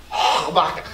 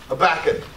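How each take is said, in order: First: Habakkuk said as "ah-BAH-kuh", dropping the h and the final k; mock Greek pronunciation. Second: Said in the usual way. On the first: Shown as a demonstration. Pastor teasing the congregation with a mock Greek Habakkuk. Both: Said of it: "That's how you say it in Greek".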